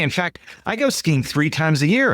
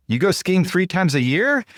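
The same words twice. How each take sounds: First: Said in the usual way. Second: Higher, "year?" rising as a question; upward intonation echo. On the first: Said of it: "he's like". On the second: Shown as a demonstration. Echoing Mike's last words back with an upward question tune. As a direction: mirror "You go skiing three times a year?" with a lift at the end. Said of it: "say it back to them with an upward intonation".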